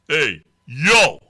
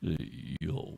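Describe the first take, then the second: First: It sounds threatening and menacing. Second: It sounds soft and seductive.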